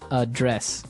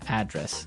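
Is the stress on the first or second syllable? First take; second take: second; first. First: The stress is on the second syllable. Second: The stress is on the first syllable.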